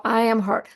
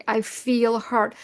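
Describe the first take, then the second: First: Said in the usual way. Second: Slow, FEEL drawn out; stress on feel. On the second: Shown as a demonstration. Teaching how to separate self from hurt, stress on "feel". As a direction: give "feel" a long, deliberate stress. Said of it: "No, you say".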